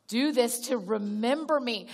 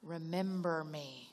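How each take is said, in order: First: Said in the usual way. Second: Soft and slow, lower, drawn out; hushed, slow. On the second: Shown as a demonstration. Preacher quoting Jesus to the congregation, hushed and slow. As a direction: let "Remember me" land low and slow.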